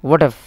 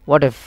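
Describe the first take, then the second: The two takes are said the same way.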